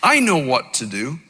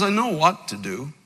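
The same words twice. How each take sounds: First: "I" lifted and stressed first. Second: "know" lifted and leaned on; stress on know. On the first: Shown as a demonstration. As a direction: lean on "I", not on "know". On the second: Retold or imitated. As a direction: press the word "know". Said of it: "Paul says".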